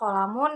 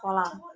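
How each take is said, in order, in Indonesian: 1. Kata ini berakhir dengan vokal penuh dan n. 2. Kata ini berakhir terpotong di konsonan.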